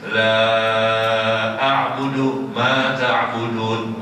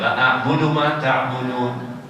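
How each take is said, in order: First: The vowel in the first word is long. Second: The vowel in the first word is short. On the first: I do not worship what you worship. The speaker calls it right. "la-nya panjang" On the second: I truly worship what you worship. The speaker calls it wrong. "Langsung la a, bukan la panjang"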